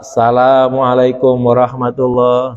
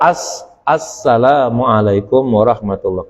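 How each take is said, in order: First: The opening 'as' sound is swallowed. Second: The opening 'as' sound is clearly pronounced. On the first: The speaker calls it wrong. "Jangan kedengarannya tuh salam" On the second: The speaker calls it right. "Yang benar ... Kedengeran asnya gitu"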